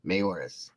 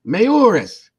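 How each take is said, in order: First: Said in the usual way. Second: Mayoris! shouted much higher and louder; Mayoris! yelped high and loud in sudden recognition; excited yell. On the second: Retold or imitated. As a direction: fire Mayoris! out as a startled cry. Old man shouts the name back.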